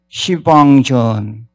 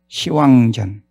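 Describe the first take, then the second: First: The middle syllable is pronounced 'bang'. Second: The middle syllable is pronounced 'wang'. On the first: The speaker calls it wrong. "그렇게 해서 될 일이 아닙니다" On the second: The speaker calls it right. "시왕전 이렇게 읽어라"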